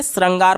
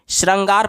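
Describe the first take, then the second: First: श्रृंगार read as "srangaar", plain s plus short a; misspelling read literally. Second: श्रृंगार read as "shrangaar", sh plus a short a; misspelling read literally. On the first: Teacher reading a wrong option to students, "srangaar" for श्रृंगार. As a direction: say श्रृंगार with SRA, an s not sh. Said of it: "इसको क्या पढ़ेंगे?". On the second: Teacher reading a wrong option to students, "shrangaar" for श्रृंगार. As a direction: say श्रृंगार with SHRA, not SHRI. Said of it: "इसको हम लोग क्या पढ़ेंगे?". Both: Shown as a demonstration.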